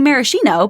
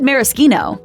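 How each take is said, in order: First: The middle consonant is said as sh. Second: The middle consonant is said as k. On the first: The speaker calls it wrong. "You might want to say maraschino, but don't" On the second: The speaker calls it right. "it is indeed maraschino"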